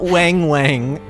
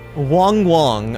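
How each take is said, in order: First: The vowel is a flat 'a' sound. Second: The vowel is an open 'ah' sound. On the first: The speaker calls it wrong. "so not Wang Wang" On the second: The speaker calls it right. "say the A like you would say ah"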